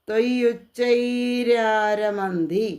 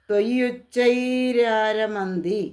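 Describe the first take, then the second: No difference in how they are said.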